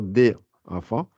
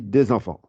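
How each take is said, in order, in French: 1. Les deux mots sont prononcés séparément, sans liaison. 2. Les deux mots sont liés comme un seul mot. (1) "On ne va plus faire" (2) "on dit des enfants. Comme si c'est un seul mot"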